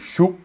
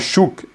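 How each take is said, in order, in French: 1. Le k final est retenu, presque silencieux. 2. Le k final est clairement relâché et audible. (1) "on prononce presque pas le K" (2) "C'est pas chouk"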